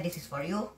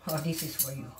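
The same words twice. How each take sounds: First: "you" gets the weight, with a rise on "you"; stress on you. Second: "this" gets the weight, with a fall at the end; stress on this. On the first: Daring the moron from downstairs, stress on you. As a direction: lean on "you" and lift it. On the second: Offering the downstairs neighbour a choice, stress on this. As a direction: hit "this" and let the line drop. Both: Shown as a demonstration.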